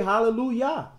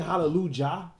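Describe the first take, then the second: First: The last syllable begins with a Y sound. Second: The last syllable begins with a J sound. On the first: The speaker calls it right. "Even when you say" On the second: The speaker calls it wrong. "you don't say"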